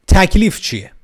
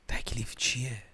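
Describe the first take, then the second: First: Sudden high, loud outburst; playfully shouted, high-pitched question. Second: Hushed, almost whispered question; playfully tiny, secretive question; very quiet voice. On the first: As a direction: burst out with the question at full volume. Repeats whispered question out loud. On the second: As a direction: ask it under your breath. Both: Pretend.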